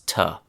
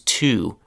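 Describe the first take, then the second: First: The word has a short, weak uh vowel. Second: The word has a full oo vowel.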